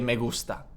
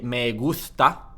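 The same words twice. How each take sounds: First: The s is pronounced as an s sound. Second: The s is pronounced as a th sound. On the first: The speaker calls it right. "you'd say me gusta" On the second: The speaker calls it wrong. "You would not say me gusta"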